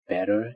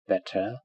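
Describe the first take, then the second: First: The middle consonant sounds like a soft d. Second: The middle consonant is a clear t. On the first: "In American English, it sounds more like d" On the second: "in received pronunciation, which is British, it is pronounced t"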